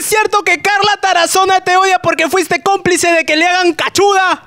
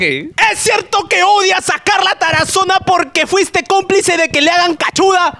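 First: It is said in a plain, ordinary way. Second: It is said with strong, heavy emphasis.

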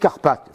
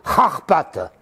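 First: The word begins with a plain hard k sound. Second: The word begins with a throaty, rasping kh sound. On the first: This is the current form of the name. "maintenant, c'est Carpates" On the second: This is the older Russian-style form of the name. "ça se prononce à la russe comme en arabe, K-H, c'est R"

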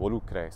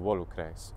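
First: The stress is on the second syllable. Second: The stress is on the first syllable. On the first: The penultimate syllable is treated as long. "That then moves the stress there. So volucres" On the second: The penultimate syllable is treated as short. "instead of volucres"

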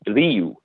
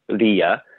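First: The name ends in an 'oo' sound. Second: The name ends in an 'ee-uh' sound. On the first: This is the older Egyptian pronunciation. "in ancient Egyptian, that becomes an oo sound" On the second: This is the later Coptic pronunciation. "In Coptic, I believe it's pronounced Rea, so R-E-E-U-H"

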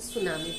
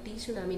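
First: The word begins with an s sound. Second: The word begins with a pronounced t sound. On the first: The speaker calls it right. "उसे सुनामी बोलते हैं क्योंकि टी यहाँ पे silent होता है" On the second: The speaker calls it wrong. "But हम टी सुनामी नहीं"

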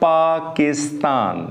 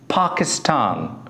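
First: The first p is said without a puff of air. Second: The first p is said with a puff of air. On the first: The speaker calls it wrong. "This is not Pakistan" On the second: The speaker calls it right. "This is Pakistan"

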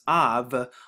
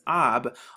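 First: The word ends with a v sound. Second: The word ends with a b sound. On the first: "with the vowel pointing that was added in this language, it now becomes av" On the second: "it has the b right here to make ab"

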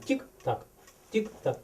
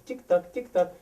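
First: The beats come at uneven intervals. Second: The beats come at even intervals. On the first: The speaker calls it wrong. "Не тік-так" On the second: The speaker calls it right. "Щоб тік-так був рівний"

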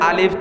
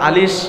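First: The word ends with a clear f sound. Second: The word ends with air hissing through teeth. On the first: The speaker calls it right. "ইমাম সাহেব পড়াবে আলিফ" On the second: The speaker calls it wrong. "তোমার মুখ দাঁতের ফাঁক দিয়ে বাতাস বের করা হবে"

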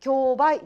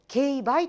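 First: It uses the everyday reading of the word. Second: It uses the legal-term reading of the word. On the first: This is how the general public and dramas say it. The speaker calls it wrong. "競売じゃなくて" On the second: This is how legal professionals say it. The speaker calls it right. "競売となります"

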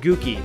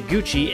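First: The double C is not said as 'ch'. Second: The double C is said as a 'ch' sound. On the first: The speaker calls it wrong. "not Gookie" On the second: The speaker calls it right. "double C's are pronounced like CH if followed by an E or an I"

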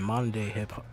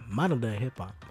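First: The word modern is clipped and not fully pronounced. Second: The word modern is pronounced fully and carefully. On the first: The speaker calls it wrong. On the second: The speaker calls it right.

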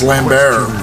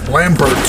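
First: The final T is left silent. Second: The final T is clearly pronounced.

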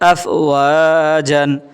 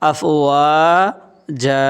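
First: The word ends with a short a and n. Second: The word ends with a lengthened a vowel. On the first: The word is read as spelled, without stopping. "এখানে বানান আফ ওয়া জান" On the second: The reader stops at the end of the verse. "উচ্চারণ হবে দুই জবরে বামে ওকফ করার কারণে মাদ্দে আওয়াজ এক আলিফটা নিয়ে পড়িতে হয়"

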